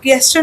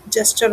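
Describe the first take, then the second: First: "गेस्चर" with a hard g at the start; mispronunciation demo. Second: "जेस्चर" opening on j, not hard g; correct pronunciation. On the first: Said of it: "गेस्चर नहीं होता है". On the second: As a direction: say "जेस्चर" starting with j as in jet. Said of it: "जेस्चर होता है". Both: Shown as a demonstration.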